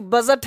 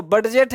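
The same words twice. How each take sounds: First: "बजट" with no d before j; "बजट", first vowel straight into j; silent d. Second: "बडजेट" with an audible d before j; the "बडजेट" misreading, d voiced; d sounded. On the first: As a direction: say "बजट" with the d left out. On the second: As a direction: say "बडजेट" as spelt, d then j. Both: Shown as a demonstration. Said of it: "बोलो बडजेट है कि बजट है".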